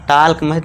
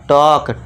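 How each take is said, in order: First: The L sound is pronounced. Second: The L sound is silent. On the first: The speaker calls it wrong. "टाल्क नहीं पढ़ना, गलत हो जाएगा" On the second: The speaker calls it right. "Silent"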